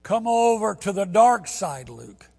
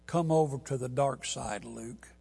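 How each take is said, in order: First: Louder, higher mock-menacing quote; higher, louder dramatic film quote; hammed-up movie line. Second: Low menacing Vader line; low dramatic movie quote; movie villain line. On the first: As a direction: ham up the villain line. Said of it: "If you like Star Wars". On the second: Retold or imitated. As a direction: intone it darkly, fading out. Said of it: "And the line is".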